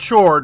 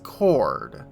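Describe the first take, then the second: First: The word begins with a 'ch' sound. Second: The word begins with a 'k' sound. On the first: The speaker calls it wrong. "It's not chord" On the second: The speaker calls it right. "it's chord"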